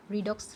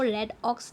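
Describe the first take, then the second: First: Redox pronounced "REE-dox"; correct reading. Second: रेडॉक्स read as two words, "red ox"; wrong reading. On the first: Teacher giving students the proper reading, redox said "ree-dox". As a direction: say redox with a long ee in the first syllable. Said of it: "हम लोग क्या पढ़ेंगे". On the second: Teacher showing students how not to read the word, रेडॉक्स said "red-ox". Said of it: "इसको रेडॉक्स नहीं पढ़ेंगे". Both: Shown as a demonstration.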